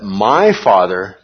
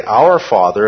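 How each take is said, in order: First: "my" leaned on, slow and deliberate; stress on MY. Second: Said in the usual way. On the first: Shown as a demonstration. Teacher contrasts with "Our Father", slow stress on "my". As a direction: drag out "my Father" to show the claim. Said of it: "that was outrageous". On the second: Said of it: "and that's fine".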